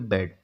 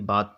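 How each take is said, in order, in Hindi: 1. यह स्वर cat जैसा छोटा 'a' है। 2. यह स्वर एक लंबी खुली 'aa' ध्वनि है। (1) "इसका जो होगा हिंदी होगा उसको क्या पढ़ेंगे" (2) "बहुत लोग नहीं पढ़ पा रहे होंगे"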